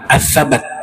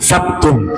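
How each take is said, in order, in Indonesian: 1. Huruf b diikuti oleh vokal a. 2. Huruf b langsung diikuti oleh t. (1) "Ats-Tsabat dibacanya huruf banyak dibaca fathah" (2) "ada beberapa keterangan membacanya huruf banyak sukun"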